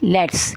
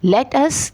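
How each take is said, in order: First: The words are shortened into one contraction. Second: Every word is said in full.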